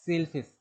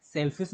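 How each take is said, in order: First: सेलफिश with a long first vowel, "sail-fish"; सेलफिश said as sail plus fish, long vowel; corrected pronunciation. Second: सेलफिश with a short e, like English "selfish"; the mistaken short-vowel "selfish" reading of सेलफिश; wrong pronunciation shown. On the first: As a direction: stretch the first syllable of सेलफिश, as in S-A-I-L. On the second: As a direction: say सेलफिश as "SELL-fis", short first vowel. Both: Shown as a demonstration. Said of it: "सेलफिश नहीं".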